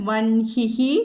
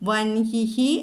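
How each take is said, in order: The two takes are said the same way.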